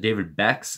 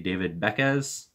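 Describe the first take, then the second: First: The surname is said as one syllable. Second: The surname is said as two syllables. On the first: The speaker calls it wrong. "I was pronouncing it David Bex, and a lot of people hated me for that" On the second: The speaker calls it right. "I think I'm pronouncing it right when I say David Beckes"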